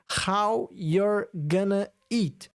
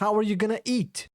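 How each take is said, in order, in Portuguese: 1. 'Are you' é unido em um 'your' curto. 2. 'Are you' é dito como duas palavras separadas.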